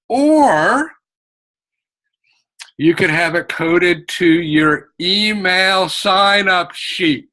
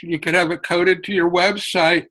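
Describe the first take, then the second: First: A marked pause after "or", then you could have it coded to your email sign-up sheet; long pause before the last option. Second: Said in the usual way. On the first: Shown as a demonstration. Teacher to authors, a deliberate long pause after "or". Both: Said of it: "you heard my pause".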